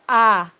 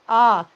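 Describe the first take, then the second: First: The vowel is open and unrounded. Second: The vowel is rounded, close to an O. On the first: The speaker calls it wrong. "not ah" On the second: The speaker calls it right. "Rounded, almost like an O"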